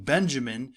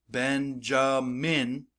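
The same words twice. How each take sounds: First: Said in the usual way. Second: Benjamin slowly in three beats, BEN-JA-MIN; syllable by syllable. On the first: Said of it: "My name, Benjamin". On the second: Shown as a demonstration. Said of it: "my jaw goes down three times".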